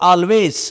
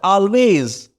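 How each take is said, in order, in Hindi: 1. आखिरी आवाज़ फुसफुसाती हुई s है। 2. आखिरी आवाज़ भनभनाती हुई z है। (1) "बहुत सारे बच्चे कहते हैं ऑलवेज, नहीं, रॉन्ग हो जाएगा" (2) "सा नहीं पढ़ते, क्या पढ़ते हैं, जा पढ़ते"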